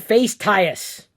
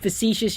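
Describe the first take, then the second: First: It is pronounced letter by letter, as spelled. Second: It is pronounced the standard way, fa-SEE-shus. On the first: The speaker calls it wrong. "which is not how you pronounce the word facetious" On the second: The speaker calls it right. "you'd go and Google it like it sounds"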